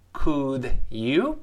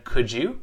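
First: "Could you" as two separate words; unlinked words. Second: "Could you" run together as "could-joo"; linked pronunciation. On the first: Teacher shows words before linking, unlinked Could you. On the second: Teacher shows linking, Could you said as could-joo. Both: Shown as a demonstration. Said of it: "连读变成".

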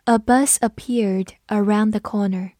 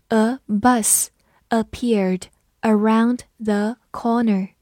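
First: Said in the usual way. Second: Slow, each word set apart; slow reading. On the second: Shown as a demonstration. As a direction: read it slowly for learners to follow. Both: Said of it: "我们慢读一遍".

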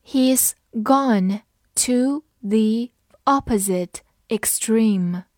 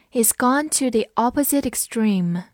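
First: Slow, one word at a time; every word set apart by a pause; slow read-along. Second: Said in the usual way. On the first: Shown as a demonstration. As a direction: read it slowly for learners to follow. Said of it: "跟我慢读一遍". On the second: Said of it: "慢读一遍".

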